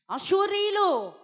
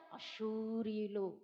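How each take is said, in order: First: అశూరీయులు punched higher and louder, slowly; stressed name. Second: అశూరీయులు said low, soft and slow; low hushed name. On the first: Preacher warning the church, stressing అశూరీయులు. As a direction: hit అశూరీయులు hard and slow. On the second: Preacher naming the feared enemy, low and slow. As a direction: drop the voice and draw out అశూరీయులు. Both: Shown as a demonstration. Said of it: "నొక్కి నొక్కి చెప్తున్నాను".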